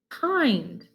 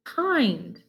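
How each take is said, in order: First: The vowel is long, like in 'find'. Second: The same.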